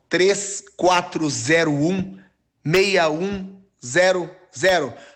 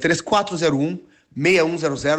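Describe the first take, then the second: First: The number is said slowly and calmly. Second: The number is said quickly.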